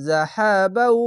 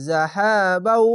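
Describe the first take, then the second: Both takes have the same delivery.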